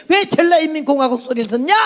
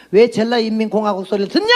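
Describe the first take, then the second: First: High-pitched indignant question, rising at the end; impassioned challenge. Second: Challenging question in usual pitch, rising at the end; retold challenge. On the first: Retold or imitated. Repeats her challenge, now impassioned. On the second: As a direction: pose a pointed question, lift the last word. Retelling her challenge to Jeolla people.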